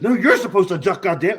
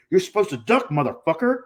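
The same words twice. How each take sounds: First: High, loud mock yell, stressing YOU'RE; retold angry retort. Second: High mock yell, punching DUCK; retold angry yell. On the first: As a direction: throw it back loudly, punching YOU'RE. Opponent yells correction back. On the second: Retold yell during botched match.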